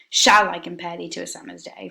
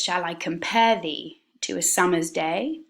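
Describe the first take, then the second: First: The stress falls on the word shall. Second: The stress falls on the nouns and verbs.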